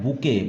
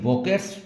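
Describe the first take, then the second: First: The word ends without a 't' sound. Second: The word ends with a 't' sound. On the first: The speaker calls it right. "इसका pronunciation होता है बुके" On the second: The speaker calls it wrong. "ये बोकेट्स बोलते हैं"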